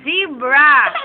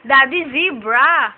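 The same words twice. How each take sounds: First: Louder, rising call of zebra to copy; prompting a toddler. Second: Slow, louder call of Daddy, zebra, each word drawn out; slow prompt. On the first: Mom prompting her child what to tell Daddy, louder rising call. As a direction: sing out Zebra with a lift at the end. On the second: Mom coaching her child to call Daddy, slow and louder. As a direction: spell it out slowly for a toddler to repeat. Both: Shown as a demonstration. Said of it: "Sabi mo kay Daddy".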